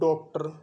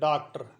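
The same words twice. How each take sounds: First: The first vowel sounds like a rounded 'o'. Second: The first vowel sounds like an open 'aa'. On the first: "और एक लोग बोलते हैं इसको डॉक्टर" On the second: "साधारण बोलचाल में जो मारवाड़ी है उसमें तो लोग डॉक्टर भी बोल देते हैं"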